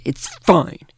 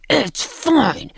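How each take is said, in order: First: Mock-emphatic reassurance; insistent brush-off. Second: Much higher, strained mock outburst; all-caps mock yell. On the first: Woman reads out a texted reply, emphatically dismissive. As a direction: imitate a firm texted refusal. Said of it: "she writes back". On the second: Acting out her capital-letter text, high-pitched mock yelling. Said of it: "texts me back in capital letters".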